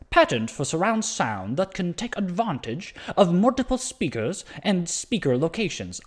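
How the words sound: It is said in a put-on English-Indian accent.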